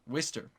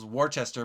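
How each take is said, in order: First: The name is said in a shorter, clipped form. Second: The name is said in a longer, spelled-out form. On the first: The speaker calls it right. "It's Worcester Railers. Worcester" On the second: The speaker calls it wrong. "I used to say this was Worcester"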